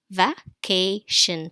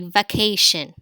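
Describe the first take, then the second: First: "Vacation" slowly as va, kay, shin; split into syllables. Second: "vacation" said in one piece, unhurried; model pronunciation. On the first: Teacher showing the final syllable, slowly split apart. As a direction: pause after each syllable of "Vacation". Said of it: "So the final syllable is shin". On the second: Teacher asking pupils to say it, as a whole word. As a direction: say "vacation" whole, without pauses. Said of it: "Say vacation". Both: Shown as a demonstration.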